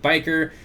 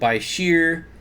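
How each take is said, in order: First: The word ends with a 'ker' sound. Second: The word ends with a 'sheer' sound. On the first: This is how the speaker says it. "I pronounce it biker" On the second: This is how other people say it. "Other people pronounce it by sheer"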